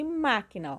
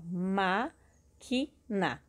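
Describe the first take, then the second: First: Said in the usual way. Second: "ma-qui-na" very slow, each syllable on its own. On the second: Shown as a demonstration. Teacher counting three syllables for pupils, syllable by syllable. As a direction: break "ma-qui-na" into three separated beats. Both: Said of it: "separando a sílaba".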